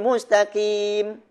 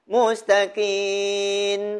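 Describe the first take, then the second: First: The final m is said with lips closed. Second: The final m is said with lips open. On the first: The speaker calls it right. "Dia tutup mulut" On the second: The speaker calls it wrong. "Dia tak tutup mulut"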